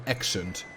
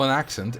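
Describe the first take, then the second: First: "accent" with a Dutch "eh" first vowel, like "eksent"; thick Dutch pronunciation. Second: Said in the usual way. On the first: Shown as a demonstration. Streamer correcting how it's said, "accent" as Dutch "eksent". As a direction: say "accent" as "EK-sunt", Dutch-style. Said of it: "it's not an accent". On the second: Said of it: "it's an accent".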